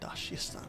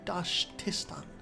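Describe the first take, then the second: First: The name has no 't' sound after 'Dash'. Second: The name has a 't' sound after 'Dash'. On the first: The speaker calls it wrong. "not Dashistan" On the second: The speaker calls it right.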